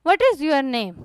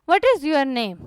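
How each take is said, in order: First: What is is said as two full words. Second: What is is said as two full words.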